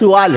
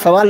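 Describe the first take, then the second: First: The first vowel is a short 'u'. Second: The first vowel is a short 'a'. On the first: This is the original Arabic form. "वो असल लफ्ज़ अरबी में सुवाल है" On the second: This is the everyday form people use. "हम जो सवाल सवाल सवाल लफ्ज़ बोलते हैं ना"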